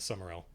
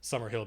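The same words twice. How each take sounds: First: The h sound in the middle is dropped. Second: The h sound in the middle is pronounced. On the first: The name has changed over time. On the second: This is the original form of the name.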